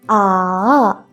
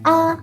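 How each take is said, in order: First: The pitch dips down, then rises. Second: The pitch stays high and level. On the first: "Drop your voice first and then rise up" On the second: "keep it high and flat"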